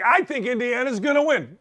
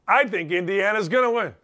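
First: It is said timidly and fearfully. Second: It is said confidently and firmly.

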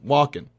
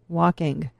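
First: The final g sound is soft, barely heard. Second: The final g sound is clearly sounded. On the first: "As opposed to just saying walking" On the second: "I really pronounce it"

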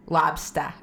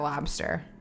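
First: The final R sound is dropped. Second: The final R sound is pronounced. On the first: "The main accent is where you drop your R, so you go lobster" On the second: "instead of lobster"

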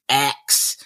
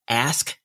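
First: The final sounds are k then s. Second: The final sounds are s then k. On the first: The speaker calls it wrong. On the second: The speaker calls it right.

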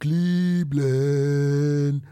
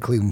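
First: The word is said in a mocking, ridiculing way. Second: The word is said in a plain, normal way.

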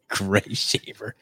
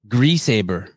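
First: The name sounds like two words, Gray Shaver. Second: The name sounds like one word, Greasehaber. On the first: The speaker calls it wrong. "It's actually not that how you pronounce his name" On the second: The speaker calls it right. "how do you pronounce it? Greasehaber"

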